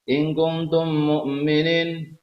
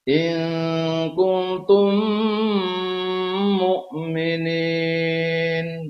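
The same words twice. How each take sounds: First: The m is short, without a nasal hum. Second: The m is held with a nasal hum. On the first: The speaker calls it wrong. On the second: The speaker calls it right.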